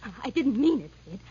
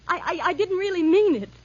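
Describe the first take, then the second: First: Stammered apology at usual volume; nervous retraction. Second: Higher, louder stammered retraction; desperate pleading. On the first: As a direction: nervously take it back, still controlled. Repeats retraction to attacker. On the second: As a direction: plead urgently, voice rising. Pleads as threat grows. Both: Acted.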